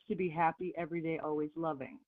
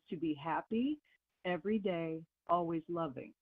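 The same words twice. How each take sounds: First: It is said at normal, faster speed. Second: It is said more slowly.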